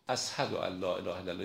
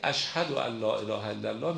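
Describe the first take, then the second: First: The first word is said with an s sound. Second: The first word is said with an sh sound. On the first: The speaker calls it wrong. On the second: The speaker calls it right.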